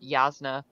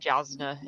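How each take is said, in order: First: The name begins with a Y sound. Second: The name begins with a J sound. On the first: This is how someone else said it. The speaker calls it right. "Dunn said Yasna" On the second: This is how the speaker first read it. The speaker calls it wrong. "I was pronouncing it Jasna in my head"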